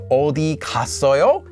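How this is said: The emphasis falls on the verb 갔어요. They went somewhere. "In this case, it's on the verb"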